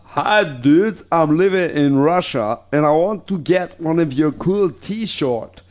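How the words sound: It is read in a put-on Russian accent.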